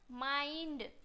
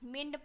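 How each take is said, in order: First: The vowel sounds like 'eye'. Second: The vowel sounds like 'ih'. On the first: The speaker calls it right. "आई से पढ़ते हैं" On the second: The speaker calls it wrong. "मिंड पढ़ देंगे"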